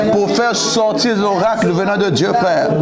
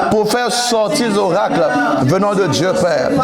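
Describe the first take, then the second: No difference in how they are said.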